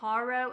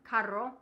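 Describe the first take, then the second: First: It is said with an English accent. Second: It is said with a Spanish accent.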